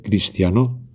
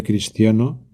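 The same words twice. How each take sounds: First: Cristiano stressed on the last syllable, cristianó; wrong stress. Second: Said in the usual way. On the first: Shown as a demonstration. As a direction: push the accent onto the final -no of cristiano. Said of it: "hago esas palabras agudas". (cristiano con acento agudo, cristianó) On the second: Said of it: "sonaría más o menos así".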